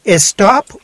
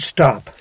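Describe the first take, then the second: First: An extra vowel is added before the s. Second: The word starts directly with the s. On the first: The speaker calls it wrong. "Is it Estop or stop?" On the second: The speaker calls it right.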